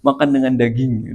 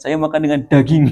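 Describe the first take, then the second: First: Said in the usual way. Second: "daging" pushed up, with a laugh; mock boasting, laughing, "daging" emphasized; raised stress on "daging". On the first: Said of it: "kalimatnya daging nate ditinggikan". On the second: Shown as a demonstration. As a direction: lift the word "daging" in a quick mock boast. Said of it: "daging nate ditinggikan".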